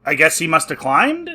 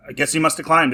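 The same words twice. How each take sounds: First: "climbed" lifted at the end as a question; doubtful question. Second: "climbed" falling at the end as a statement; resigned statement. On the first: Reviewer puzzles over how Sol got in, "climbed" rising doubtfully. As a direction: let "climbed" rise, unsure. Puzzled guess, then conceded as statement. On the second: Reviewer concedes the plot hole, "climbed" falling in resignation. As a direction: let "climbed" drop, conceding the point. Same guess repeated as a concession. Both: Real, not acted.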